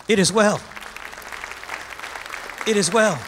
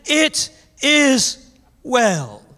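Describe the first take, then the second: First: Calm affirmation. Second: Very slow, drawn-out it is well; slow declaration. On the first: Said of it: "lift your hands and say". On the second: Preacher slowing down to declare faith to the congregation. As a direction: stretch out "It is well" slowly with weight on "is". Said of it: "That's an Emmanuel spirit". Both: Acted.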